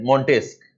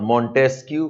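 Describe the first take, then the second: First: Montesquieu said "mon-TESK"; Montesquieu without final KYU. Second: Montesquieu said "mon-TESK-yoo"; Montesquieu with final KYU. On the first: Teacher naming the French scholar to the class, Montesquieu as "mon-TESK". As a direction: end Montesquieu on a hard K. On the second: Teacher offering students another pronunciation, Montesquieu as "mon-TESK-yoo". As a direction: add a "kyoo" ending to Montesquieu. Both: Shown as a demonstration. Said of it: "however you pronounce it".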